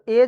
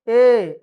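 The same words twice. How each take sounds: First: Said in the usual way. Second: "ए" held long and louder; drawn-out vowel. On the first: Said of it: "तो ए जैसे बोलते". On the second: Shown as a demonstration. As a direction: stretch "ए" out as one sustained vowel. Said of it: "ऐसा करके बोलते रह गया".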